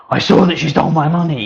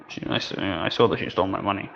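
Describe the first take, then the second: First: Higher and louder, "saw" hit hard; emphatic outburst. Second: Softer, quicker, hesitant scared voice. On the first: Teacher contrasting a confident accusation, loud and emphatic. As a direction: declare it loudly with big gestures. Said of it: "I'm using my gestures". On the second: Teacher acting a frightened speaker for students, scared. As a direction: stammer it out like you're frightened. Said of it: "I'm scared". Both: Shown as a demonstration.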